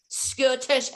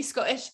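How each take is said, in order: First: "Scottish" with the T's sounded; T's pronounced. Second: "Scottish" without the middle T; T dropped. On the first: Praising his accent, "Scottish" with the T's pronounced. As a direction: say the middle T in "Scottish". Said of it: "I don't know why I say the T's". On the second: Wondering how Scots say it, "Scottish" with the T dropped. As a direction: drop the T in "Scottish", Scots-style. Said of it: "I don't know why I say the T's. Would it be". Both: Shown as a demonstration.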